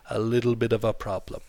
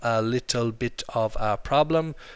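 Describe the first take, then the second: First: The words run together with soft D-like sounds. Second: Each word is said separately with clear T sounds. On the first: The speaker calls it right. "We say a little bit of a problem" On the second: The speaker calls it wrong. "We don't say it like that"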